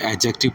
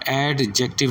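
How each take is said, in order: First: The d is silent, starting with a j. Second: The d sound is pronounced before the j. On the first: The speaker calls it right. "बल्कि एडजेक्टिव पढ़ना है, जे के साथ pronounce करना है" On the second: The speaker calls it wrong. "आपने एडजेक्टिव नहीं पढ़ना है"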